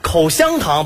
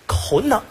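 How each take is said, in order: First: Every syllable is pronounced clearly and fully. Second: A syllable is swallowed and the word is slurred.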